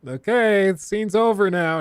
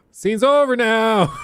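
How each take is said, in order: First: Nervous interruption. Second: High, loud, stretched-out call; escalate, trying to halt an actor who won't stop; desperate insistence. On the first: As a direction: gently call the scene to a halt. Crew trying to stop actor. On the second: Crew insisting more desperately. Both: Retold or imitated.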